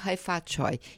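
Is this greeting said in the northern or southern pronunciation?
southern. It is said with the southern, Cantonese pronunciation. "quem esteve no Sul e quem esteve em Macau sabe"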